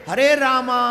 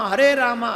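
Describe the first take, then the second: The two takes are said the same way.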